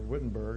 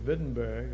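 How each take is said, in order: First: The name is said with an American pronunciation. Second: The name is said with a German pronunciation.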